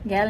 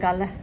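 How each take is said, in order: First: The vowel is short and front, as in cat. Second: The vowel is open, with an added final syllable. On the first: "इंग्लिश में बोलते हैं गैल / गैल नहीं" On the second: "श्रीलंकन्स बोलते हैं गाला"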